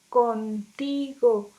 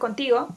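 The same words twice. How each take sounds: First: The word is said very slowly. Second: The word is said quickly. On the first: The n keeps its ideal alveolar sound. "Tendríamos que pronunciarla muy despacio" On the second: The n becomes a dental nasal. "si lo decimos rápido"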